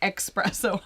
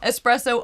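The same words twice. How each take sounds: First: The word begins with a 'ks' sound. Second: The word begins with an 's' sound. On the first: The speaker calls it wrong. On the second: The speaker calls it right.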